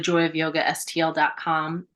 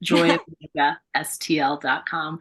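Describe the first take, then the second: First: It is said fast. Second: It is said slowly.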